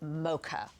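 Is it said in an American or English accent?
American. It is said with an American accent.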